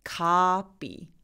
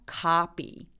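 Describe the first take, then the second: Both takes have the same delivery.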